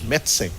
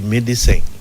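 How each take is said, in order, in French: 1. Le e du milieu n'est pas prononcé du tout. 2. Le e du milieu est clairement prononcé. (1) "mais on dit médecin" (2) "tout le monde dit médecin"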